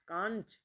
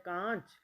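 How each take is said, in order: Both takes have the same delivery.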